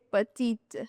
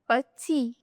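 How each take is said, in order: First: The final T is pronounced. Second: The final T is silent. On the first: The speaker calls it wrong. "most of the students say petite" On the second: The speaker calls it right. "No, this is petit"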